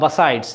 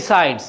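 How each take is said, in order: First: The first syllable has a reduced 'ba' vowel. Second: The first syllable has a clear 'bi' vowel. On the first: This is a colloquial form. "Colloquial ল্যাঙ্গুয়েজে বাসাইডস" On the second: This is the most standard English form. "আমি বিসাইডস বলি"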